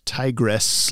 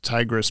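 First: "tigress" with a clear short-e ending, TIE-gress; female-tiger pronunciation. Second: "Tigress" with a reduced second syllable, TIE-gruss; name pronunciation. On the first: Host explaining a listener's confusion, "tigress" said TIE-gress. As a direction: say "tigress" so it ends like "dress". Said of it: "T I G R E S S". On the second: Host quoting a listener's comment, "Tigress" said TIE-gruss. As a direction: say "Tigress" ending in an unstressed "gruss". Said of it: "it's weird hearing the name pronounced". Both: Shown as a demonstration.

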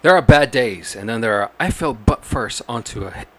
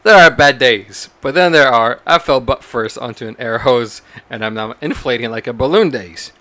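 First: Newscaster voice. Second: Louder newsreader opening; newscaster voice. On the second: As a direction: read it like an anchor. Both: Pretend. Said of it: "a newscaster voice".

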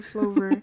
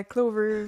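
First: "Flover" said with an F sound, floh-ver; "Flover" starting with F, not K. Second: "Clover" said with a hard K sound, kloh-ver; "Clover" starting with K, not F. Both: Shown as a demonstration.

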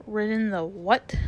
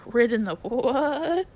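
First: Scornful, incredulous question; contemptuous comeback; extreme contempt. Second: Drawn-out WHAT rising into a neigh; angry talking horse, neighing the last word; horsey neigh. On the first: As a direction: retort in disbelief with disdain. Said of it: "retorted the horse with extreme contempt". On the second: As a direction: let "what" stretch and climb like a whinny. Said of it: "it came out sort of a neigh". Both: A narrator's reading.

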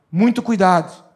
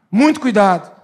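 First: Said in the usual way. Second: Louder repeat of muito cuidado; louder warning. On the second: Real, not acted. Pastor repeating the caution to the church, louder. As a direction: press the warning harder.

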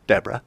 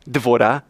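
First: Said in the usual way. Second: Devorah with a V in the middle; Devorah, deh-VOH-rah; Hebrew pronunciation. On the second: Shown as a demonstration. Preacher gives the Hebrew form, Devorah.

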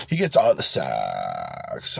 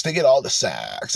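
First: Much lower and slow, dragged-out gloomy drone; the guy's delivery. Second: Said in the usual way. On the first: Retold or imitated. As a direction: drop way down and crawl through it like a bitter incel. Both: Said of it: "that's how the guy says it".

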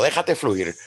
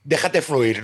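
First: Como el psicólogo. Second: Said in the usual way. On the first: Retold or imitated. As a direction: quote it like a calm therapist. ("Déjate fluir" suave, como un psicólogo) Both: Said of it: "Como diría el psicólogo".

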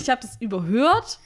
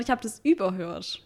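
First: "überhört" stressed on "hört", voice rising. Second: "überhört" stressed on "über". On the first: Correcting the co-host on emphasis, "überhört" with the weight on "hört". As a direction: lean on the end of "überhört". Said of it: "du betonst es ja anders". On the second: Showing the co-host the other meaning, "überhört" with "über" stressed. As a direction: put the weight on the front of "überhört". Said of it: "Die Betonung ist anders". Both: Shown as a demonstration.

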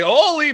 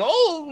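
First: "Ole" said in full as oh-lee; intended pronunciation. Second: Put-on "Ole" cut to one syllable, like "ole" in good ole boy; dropped final E. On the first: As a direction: sound both syllables of "Ole", ending in a clear ee. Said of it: "it came out Ole". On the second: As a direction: say "Ole" as a drawn-out ohl, no ee. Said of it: "I was trying to say". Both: Shown as a demonstration.

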